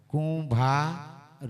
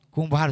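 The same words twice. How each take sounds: First: Very slow, stretching કુંભાર; drawn out slowly. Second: Said in the usual way. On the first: Shown as a demonstration. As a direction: let કુંભાર linger slowly. (કુંભાર શબ્દ ખૂબ ધીમેથી, ખેંચીને)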